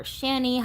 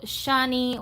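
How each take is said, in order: First: "Shani" said as SHAN-ee; second pronunciation variant. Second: "Shani" said as SHAH-nee; first pronunciation variant. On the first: Host offering the alternative name, "Shani" as SHAN-ee. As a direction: say "Shani" with the a of "can". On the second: Host naming the doll's face, "Shani" as SHAH-nee. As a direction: say "Shani" with an open ah. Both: Shown as a demonstration. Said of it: "however you decide to pronounce it".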